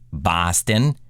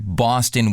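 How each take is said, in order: First: It is said with long, drawn-out Boston vowels. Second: It is said with ordinary, unlengthened vowels. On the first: "would turn into" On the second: "The word Boston"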